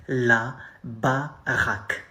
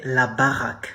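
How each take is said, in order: First: La baraque drawn out slowly, each syllable separated; slow teaching model; slow demo. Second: La baraque said at normal speed; French slang at natural pace; natural slang demo. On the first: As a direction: spell La baraque out slowly for learners. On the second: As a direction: say la baraque casually. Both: Shown as a demonstration. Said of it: "slang way to say a house".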